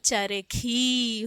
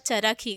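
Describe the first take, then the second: First: The final vowel is long. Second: The final vowel is short. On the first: The speaker calls it right. "इसमें भी खा में बड़ी लगी है" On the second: The speaker calls it wrong. "अगर छोटी लगती तो चरख ही हो जाता, चरख ही गलत होता"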